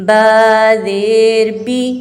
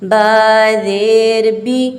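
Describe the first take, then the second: Both takes have the same delivery.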